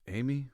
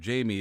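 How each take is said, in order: First: The name is said like Spanish 'Hi-meh'. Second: The name is said like English 'Jamie'. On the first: The speaker calls it right. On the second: The speaker calls it wrong.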